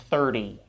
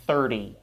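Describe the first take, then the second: First: The middle consonant is a quick soft flap. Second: The same.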